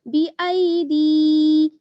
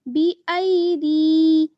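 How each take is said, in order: No difference in how they are said.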